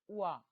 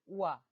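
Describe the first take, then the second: The two takes are said the same way.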